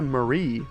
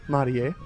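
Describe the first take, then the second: First: The name is said with an English pronunciation. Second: The name is said with a Japanese pronunciation.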